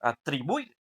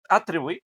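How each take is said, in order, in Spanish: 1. La tónica está en la sílaba del medio. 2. La tónica está en la primera sílaba. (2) "no, ¿verdad?"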